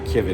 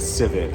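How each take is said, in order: First: The word begins with a hard K sound. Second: The word begins with a soft S sound. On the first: The speaker calls it wrong. "The C is not Kivit" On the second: The speaker calls it right. "it's Civet"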